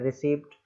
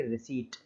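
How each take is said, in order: First: 'रिसीप्ट' with P heard before the final T; P sounded. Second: 'रिसीट' ending in T alone, no P; silent P. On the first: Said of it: "तो पी को हम नहीं बोलेंगे". ('रिसीप्ट' में T से पहले P बोलना) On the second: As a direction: drop the P in 'रिसीट'. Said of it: "तो केवल पढ़ेंगे". ('रिसीट' को बिना P के, अंत में सिर्फ़ 'ट') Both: Shown as a demonstration.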